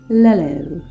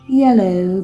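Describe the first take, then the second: First: The word begins with an L sound. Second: The word begins with a Y sound. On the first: The speaker calls it wrong. "I used to say lello" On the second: The speaker calls it right. "Not yellow"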